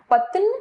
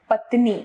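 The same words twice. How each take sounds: First: पत्न without the final ee; wrong pronunciation. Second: Said in the usual way. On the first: Shown as a demonstration. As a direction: drop the last vowel, leaving पत्न. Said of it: "अशुद्ध रूप". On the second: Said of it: "इसका शुद्ध रूप".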